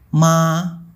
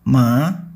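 First: The pitch stays high and level. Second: The pitch rises steadily upward. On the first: "Ton 1 bunyinya datar seperti ma" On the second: "Ton 2 bunyinya naik seperti sedang bertanya"

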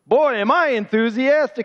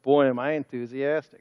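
First: The line is said loudly, with much energy. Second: The line is said quietly, with little energy. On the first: The speaker calls it right. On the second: The speaker calls it wrong. "I didn't hear you"

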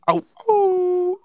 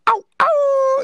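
First: The howl is deep and low. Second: The howl is high-pitched.

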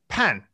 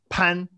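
First: The pitch falls sharply from high to low. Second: The pitch stays high and level. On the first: "fourth tone" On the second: "Is it outside the entrance?"

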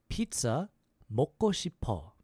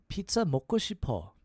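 First: It is said at a slower pace. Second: It is said at a faster pace.

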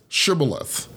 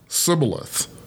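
First: The word begins with an SH sound. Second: The word begins with an S sound. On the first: The speaker belongs to one group of people. "beginning with the SH sound, like in shoe" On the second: The speaker belongs to a rival group of people. "beginning with the S sound, like in so"

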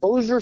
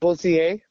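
First: The name is pronounced in an Americanized way. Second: The name is pronounced in a French-sounding way. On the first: The speaker calls it wrong. "They call it Bossier City" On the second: The speaker calls it right. "I would assume would be pronounced like Bossier"

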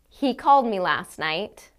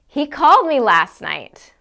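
First: It is said as a plain statement. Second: It is said in a surprised tone. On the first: The speaker is simply reporting a fact. "I can say it as a statement of fact" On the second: The speaker did not expect him to call. "Or I can say it as if I'm surprised"

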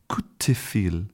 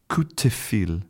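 First: The middle consonant is devoiced, like a t. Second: The middle consonant is devoiced, like a t.

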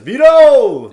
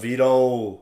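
First: It is said in a loud, excited tone. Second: It is said in a let-down, disappointed tone. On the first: The kick was made. "and if he makes a" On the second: The kick was missed. "What if he misses it?"

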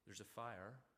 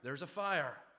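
First: It is said in a mild, casual tone. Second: It is said in an urgent, pleading tone. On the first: The speaker is only politely suggesting action. The speaker calls it wrong. "Would you like to waken up, please?" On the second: The speaker is imploring them to act now. The speaker calls it right. "Please waken up now. Do you hear the difference?"

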